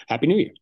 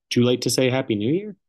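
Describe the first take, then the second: First: Overdone cheer. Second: Said in the usual way. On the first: Shown as a demonstration. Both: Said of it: "Too much".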